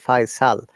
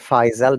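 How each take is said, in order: First: The middle consonant is a hissing S sound. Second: The middle consonant is a buzzing Z sound. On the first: "Sa sound" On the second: "that S like Z sound"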